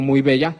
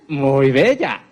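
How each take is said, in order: First: Said in the usual way. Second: Louder, drawn-out admiring muy bella. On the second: Shown as a demonstration. Lecturer shows muy bella with full expression, admiring. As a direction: gush muy bella as if truly impressed. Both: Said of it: "Esas expresiones faciales".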